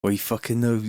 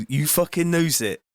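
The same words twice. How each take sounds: First: West Country, unemphatic first try; West Country accent. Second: Lilting West Country drifting into Welsh; Welsh-sounding West Country. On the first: Streamer testing an accent phrase, casual West Country. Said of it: "West Country a-, accent". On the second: Streamer retrying the phrase, accent sliding towards Welsh. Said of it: "that's more like Welsh". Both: Shown as a demonstration.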